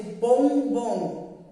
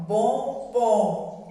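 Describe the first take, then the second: First: Said in the usual way. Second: "bombom" said with the nose pinched shut, sound blocked. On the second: Shown as a demonstration. Teacher showing second graders "bombom" with a blocked nose. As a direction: say "bombom" as if holding your nose closed. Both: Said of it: "se a gente tapar o nariz e for falar bombom".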